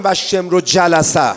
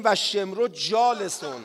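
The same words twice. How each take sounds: First: Slow "و شمر جلسه" with short vowels in "جلسه"; the incorrect version with "جلسه"; wrong reading. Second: Slow, careful "و شمر جالسون" with the long a in "جالسون"; drawn-out recitation of "جالسون"; correct Arabic reading. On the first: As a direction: say "جلسه" as the mistaken form, slowly. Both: Shown as a demonstration.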